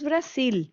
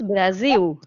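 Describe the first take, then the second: First: The final sound is a clear L. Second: The final sound is like a U. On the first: This is how it is said elsewhere. "Aquí no decimos Brasil" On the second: This is how it is said locally. "la letra L también la pronunciamos como U"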